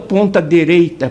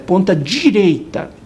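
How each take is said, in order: First: The phrase is said carelessly with sounds altered. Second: The phrase is said carefully with every sound clear. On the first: The speaker calls it wrong. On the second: The speaker calls it right.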